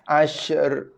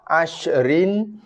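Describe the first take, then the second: First: The final r is cut off halfway with no vowel. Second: The final r is followed by a short i vowel. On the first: This is the form used when stopping at the word. "bunyinya sekerat aja terputus" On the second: This is the word's original form. "dia memang asal bagi bawah"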